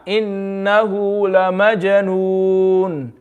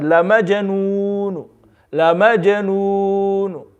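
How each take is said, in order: First: Majnoon ended on a plain sukoon; slow, drawn Innahu la majnoon with plain stop; stop with iskan. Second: Majnoon ending with a faint one-third u vowel; slow La majnoon ending in a faint u; stop with rom. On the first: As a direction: close majnoon with a clean silent stop. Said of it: "This is iskan". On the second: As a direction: whisper a trace of u after majnoon. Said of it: "one third". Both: Shown as a demonstration.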